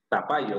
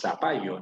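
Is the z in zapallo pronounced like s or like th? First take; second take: th; s. First: The z is pronounced like a th. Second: The z is pronounced like an s. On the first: This is not how it is said locally. "No decimos zapallo" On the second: This is how it is said locally. "decimos zapallo, ¿no? Con S"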